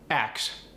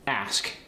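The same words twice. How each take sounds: First: "Ax" with the k before the s; switched consonants. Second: "Ask" with the s before the k; crisp, loud "Ask", ending in s-k; standard pronunciation. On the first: Teacher showing the dialect form, "Ax" ending in k-s. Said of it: "the S switches places with the K". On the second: Teacher showing the standard form, "Ask" ending in s-k. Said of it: "If I say". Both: Shown as a demonstration.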